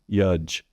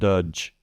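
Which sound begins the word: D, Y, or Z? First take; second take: Y; D. First: The word begins with a Y sound. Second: The word begins with a D sound. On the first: "substituting a Y" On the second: "trying to make a D sound"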